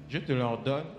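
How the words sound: It is read flatly, like calm reading aloud. The text is merely being read. The speaker calls it wrong. "Toi, tu lis comme un bon français. Non, c'est pas ce que Jésus-Christ a dit là"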